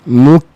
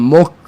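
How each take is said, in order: First: The vowel is narrow and kept forward. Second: The vowel is open and pulled back. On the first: The speaker calls it right. "Kecilkan dia mu" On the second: The speaker calls it wrong. "jangan mok"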